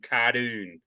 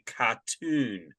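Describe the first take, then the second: First: The t is said as a d sound. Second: The t is said as a clear t sound. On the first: The speaker calls it wrong. "my T's turn into D's" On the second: The speaker calls it right. "at least we can pronounce our T's"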